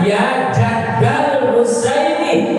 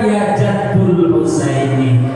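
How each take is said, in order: First: The first noun ends with an 'a' vowel. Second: The first noun ends with a 'u' vowel. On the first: The speaker calls it right. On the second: The speaker calls it wrong.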